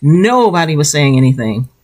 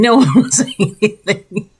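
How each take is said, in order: First: Said in the usual way. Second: Laughing. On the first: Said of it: "I mean, no one was saying anything". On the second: Real, not acted. Amused self-correction.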